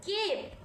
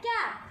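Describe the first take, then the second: First: "केप" with a long "ay" vowel; long A sound. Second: "कैप" with short "a" as in map; short A sound. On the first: Teacher contrasts words without and with E, long sound. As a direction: hold the "ay" in "केप". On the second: Teacher contrasts words without and with E, short sound. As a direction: keep the short vowel in "कैप". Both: Shown as a demonstration. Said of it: "how the sound changes by adding E".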